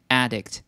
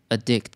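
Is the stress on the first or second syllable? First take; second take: first; second. First: The stress is on the first syllable. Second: The stress is on the second syllable. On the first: It is a noun meaning an addicted person. "当名词的时候呢，重音在最前面，我们要念addict" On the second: It is a verb meaning to become addicted. "当动词的时候呢，重音就在第二个音节，我们就要念addict"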